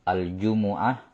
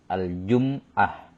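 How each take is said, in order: First: The m is followed by a u vowel. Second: The m is followed by no vowel. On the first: "di dhammah mimnya" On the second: "bisa disukun"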